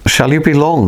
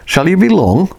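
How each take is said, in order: First: Said in the usual way. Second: Higher, pressing impatient repeat; more impatiently. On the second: Acted. Lionel asking the silent intruder again, impatiently. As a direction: push the question, losing patience. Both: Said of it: "said more impatiently".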